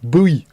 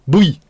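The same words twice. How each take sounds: No difference in how they are said.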